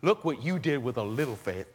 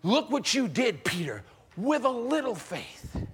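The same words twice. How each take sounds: First: Gentle Jesus. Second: Proud Jesus. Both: Acted. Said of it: "maybe change it just a little?".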